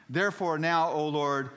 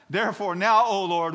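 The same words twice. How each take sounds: First: High, loud pulpit reading; forceful but not yet at full shout; dramatic plea. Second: Very high, full-force shout; hammed-up desperate prayer, shouted; impassioned plea. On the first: Acted. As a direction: call out to the Lord. First take of Jonah's prayer. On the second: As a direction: cry out to the Lord at the top of your voice. Repeats prayer at higher intensity.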